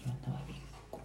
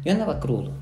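First: Barely voiced admission of being hungover; hushed confession. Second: Louder and higher, owning it; openly admitting the hangover when pushed. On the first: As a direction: mumble it under your breath, a little ashamed. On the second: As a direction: say it out loud this time, no hiding. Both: Real, not acted. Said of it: "No, dilo, dilo".

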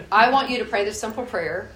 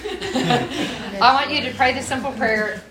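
First: Said in the usual way. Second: Slow, higher, laughing through the words. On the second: Real, not acted. Repeating the prayer instruction to the congregation, laughing. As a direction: let real laughter carry the repeat.

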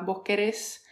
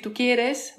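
First: "vos querés" stressed on the last syllable; voseo stress. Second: Said in the usual way. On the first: Shown as a demonstration. Showing how voseo changes the tune, final-syllable stress. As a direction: lean on the final -RÉS of QUERÉS. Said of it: "la tonada también cambia". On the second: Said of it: "en vez de decir".

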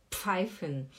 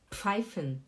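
The two takes are said the same way.

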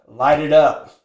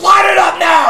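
First: Said in the usual way. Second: High, furious shouted order; going crazy. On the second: Retold or imitated. Coach ordering reluctant smoker to light up, crazed shout. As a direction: bellow it like a coach losing it. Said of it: "he starts going crazy on him".

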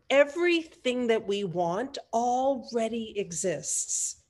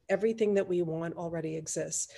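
First: Slow, weighted "Everything that we want already exists"; emphatic. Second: Softer, lowered, even delivery; quiet repeat. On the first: Host drives home that "already exists" is important, slow and emphatic. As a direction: draw out "Everything" and "already", slowly. Key point, said slowly then repeated. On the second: Host repeats the key belief to let it land, quietly. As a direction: let it settle softly after the emphasis. Same point repeated softly. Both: Real, not acted.

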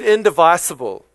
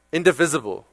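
First: "indivisible" with VIS said like "vice"; long-i pronunciation. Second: "Indivisible" with a short i, in-di-VIZ-ible; corrected pronunciation. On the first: Real, not acted. Preacher reading the pledge's word to the crowd, long-i pronunciation. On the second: Shown as a demonstration. Preacher repeating the congregation's correction, short-i pronunciation. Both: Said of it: "Thank y'all for correcting my speech".

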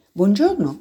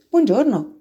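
First: Said in the usual way. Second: High, gentle greeting; a kind hello to an unseen stranger; gently. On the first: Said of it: "disse la volpe". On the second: Acted. The little prince answers the fox's greeting gently. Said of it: "rispose gentilmente".

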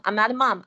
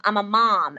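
First: "mum" with a short British uh vowel; "mum" rhyming with "hum", disowned. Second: "mom" with an open American ah vowel; "mom" with the vowel of "father". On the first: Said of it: "Don't call me a mum". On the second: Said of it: "M O M". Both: Shown as a demonstration.

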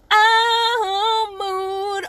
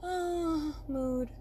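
First: High, loud, drawn-out swell; big belted mood. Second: Soft, small sighed sound; low-key mood. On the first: Showing listeners the range of moods, big and belted. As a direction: belt it out, the huge end of the range. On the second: Showing listeners the range of moods, soft and understated. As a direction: sigh it softly, the small end of the range. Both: Shown as a demonstration. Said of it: "the moods from".

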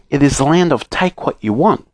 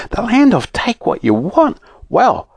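First: Higher, measured letter-reading voice; reading aloud. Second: High-pitched, thrilled wonder; excited. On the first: Note telling children of a wonderful land, reading aloud. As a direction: present the land's name from a note. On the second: Fanny reacting to the letter, excited. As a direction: marvel at it in a soaring voice. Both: A narrator's reading.

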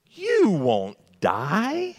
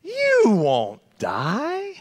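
First: Very slow, stretched and high, oily snake voice; sly serpent. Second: Even higher and slower, sliding snake voice; sly serpent. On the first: Preacher voices Satan lying to Eve, slow and sly. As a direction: drag it out like a sly tempter. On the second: Preacher repeats Satan's lie to Eve, drawn-out and sly. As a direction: stretch every word like a tempting snake. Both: Retold or imitated. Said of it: "that's the way he said it too".

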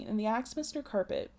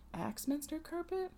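First: Said in the usual way. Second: Quizzical "Axminster carpet?" said softer and higher; amused aside. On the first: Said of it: "Axminster carpet? Cool, sounds fancy". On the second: Real, not acted. Listener breaking in, amused, on "Axminster carpet". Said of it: "Cool, sounds fancy".

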